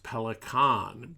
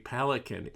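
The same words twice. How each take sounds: First: The name is said with German pronunciation. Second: The name is said with English pronunciation. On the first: This is how it is said in Germany. "in German, Pelican is pronounced Pelican" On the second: This is how it is said in the United States. "in the United States and throughout much of the world, they say Pelican"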